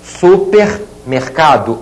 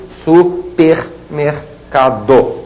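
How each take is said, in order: First: Supermercado as super, pause, mercado; prefix set apart. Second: Supermercado as su, per, mer, ca, do; five separated syllables of Supermercado. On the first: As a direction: say Supermercado slowly in two parts. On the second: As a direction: say Supermercado very slowly with a gap after each syllable. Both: Shown as a demonstration. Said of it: "não dá para destacar o R".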